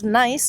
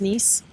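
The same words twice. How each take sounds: First: "nice" said like the English word for pleasant; spelling pronunciation. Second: "Nice" said like English niece; French pronunciation. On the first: Explaining the French city's spelling to co-host, "nice" as the English word. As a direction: say "nice" with an eye vowel. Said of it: "it's pronounced Nice". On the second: Correcting how the French city sounds, "Nice" rhyming with fleece. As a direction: say "Nice" with a long ee. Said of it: "I think it's pronounced Nice". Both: Shown as a demonstration.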